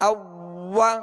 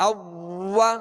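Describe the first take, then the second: The two takes are said the same way.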